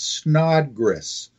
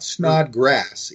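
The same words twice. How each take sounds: First: The second syllable sounds like 'gress'. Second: The second syllable sounds like 'grass'. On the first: The speaker calls it right. "it's Snodgrass, S N O D G R E S" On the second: The speaker calls it wrong. "it's not"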